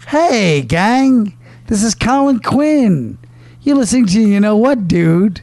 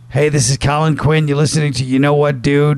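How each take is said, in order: First: It is said in a lively, peppy way. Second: It is said in a plain, flat way.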